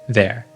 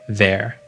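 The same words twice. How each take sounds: No difference in how they are said.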